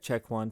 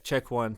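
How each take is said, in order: First: The sound is warmer, smoother and flatter. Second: The sound is brighter with a mid-range bump. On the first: "very like flat, um, warmer sounding" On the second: "a little bit brighter"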